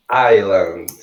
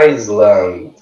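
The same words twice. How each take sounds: First: Island as "EYE-land", silent S; correct pronunciation. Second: Island with the S sounded, "IZ-land"; spelled-out mispronunciation. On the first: Teacher correcting learners, Island said "eye-land". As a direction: drop the S sound in Island. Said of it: "a pronúncia correta dela em inglês". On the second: Teacher showing the misleading spelling, Island said with an S. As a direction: pronounce the written S in Island. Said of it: "que a gente escreve". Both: Shown as a demonstration.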